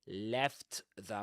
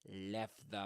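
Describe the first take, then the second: First: The t at the end of 'left' is pronounced. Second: The t at the end of 'left' is dropped. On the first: "He doesn't say left the Muggle world" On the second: "he says and left the left the left the Muggle world"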